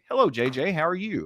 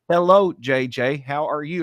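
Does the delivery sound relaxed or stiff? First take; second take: relaxed; stiff. First: It is said in a relaxed, conversational way. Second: It is read in a stiff, unnatural way. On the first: The speaker calls it right. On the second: The speaker calls it wrong. "no, don't say it that way"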